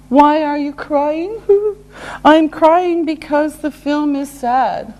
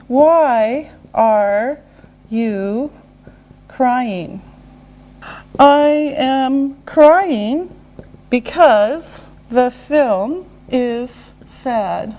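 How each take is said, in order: First: Said in the usual way. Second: Word by word, long gaps; slow and deliberate. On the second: Shown as a demonstration. Teacher modelling a crying example, slow and separated. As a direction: leave space after each word.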